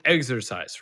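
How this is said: The word has an English pronunciation. "in English, you'd pronounce it exercise"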